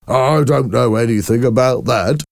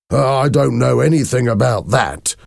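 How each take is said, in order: First: Mocking, higher-pitched imitation; imitating Mister Hoven. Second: Higher-pitched, nervous denial; uneasy denial. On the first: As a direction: mimic the man's denial to make friends laugh. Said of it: "started to imitate him". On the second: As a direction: deny it while caught off guard. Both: A narrator's reading.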